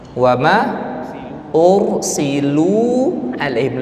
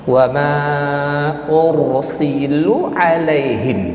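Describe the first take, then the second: First: The vowel in 'lu' is long. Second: The vowel in 'lu' is short. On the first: The speaker calls it right. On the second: The speaker calls it wrong.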